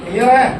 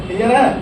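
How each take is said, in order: Both takes have the same delivery.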